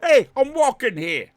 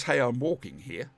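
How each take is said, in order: First: High, loud mock New Yorker; hammed-up New York accent, shouted high. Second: Understated New York accent attempt; a hint of New York, barely put on. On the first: Streamer echoing co-host, loud exaggerated New York accent. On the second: Streamer awaiting Brenton's judgment, subdued New York accent. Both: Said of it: "judge my New York accent".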